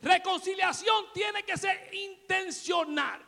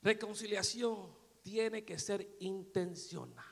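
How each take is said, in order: First: Higher, slow, proclaimed; emphatic repeat. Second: Quiet, slow, lower statement; soft and slow. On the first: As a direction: drive the point home, slowly. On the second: Preacher first says it softly to the church, slow. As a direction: say it gently and slowly. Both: Shown as a demonstration. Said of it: "Lo digo de nuevo".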